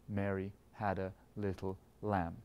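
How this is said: The stress falls on the word lamb. "last beat is heavy"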